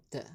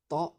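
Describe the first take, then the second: First: Ta avec un a fermé en è, la forme fautive; ta dit comme té, à éviter; mauvaise prononciation. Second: Ta avec un t simple et un a ouvert; ta dit net et léger; bonne prononciation. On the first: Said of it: "et non ta". (ta prononcé trop clair, en è) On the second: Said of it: "ça se prononce ta et non ta". (ta prononcé comme modèle) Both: Shown as a demonstration.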